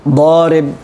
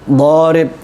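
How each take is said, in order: The two takes are said the same way.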